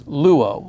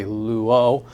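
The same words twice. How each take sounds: First: "luo" stressed on the opening lu; "luo" with a firm first syllable and light o. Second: "luo" stressed on the final o; chanting-style "luo", accent moved to the o; stress on second syllable. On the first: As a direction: say "luo" as LU-o, weight up front. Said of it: "but really the accent is". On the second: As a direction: say "luo" as lu-O, weight on the ending. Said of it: "easier to accent the second syllable". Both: Shown as a demonstration.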